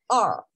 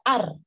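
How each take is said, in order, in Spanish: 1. La R es suave, con la lengua echada hacia atrás. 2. La R se pronuncia fuerte, al estilo español. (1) "es ar" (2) "cuando yo estaba aprendiendo en inglés, decía ar"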